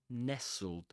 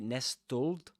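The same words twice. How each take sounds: First: The t sound is silent in the middle. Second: The t sound is pronounced in the middle. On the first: The speaker calls it right. "you don't pronounce the t there" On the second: The speaker calls it wrong. "you don't say nestled"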